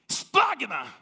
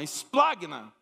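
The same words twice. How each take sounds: First: It is said forcefully, from the throat. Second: It is said mildly, without force.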